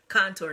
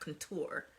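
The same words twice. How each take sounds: First: The word is said with a hard, harsh sound. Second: The word is said with a soft, gentle sound. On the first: This is how it is said where the speaker is from. "hard contour" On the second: This is how other people say it. "not contour, you know, real soft"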